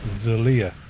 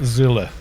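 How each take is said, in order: First: The name is said with three syllables. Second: The name is said with two syllables. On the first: The speaker calls it right. "his name is actually Zalia" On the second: The speaker calls it wrong. "Not Zilla. Like Godzilla"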